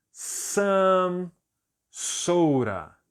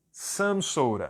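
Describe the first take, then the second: First: "some" stretched high, pause, falling "soda"; word-by-word model. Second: Said in the usual way. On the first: Shown as a demonstration. Teacher repeats phrase for students, slowly word by word. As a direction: separate "some" from "soda" for learners to copy. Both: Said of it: "eu vou dizer".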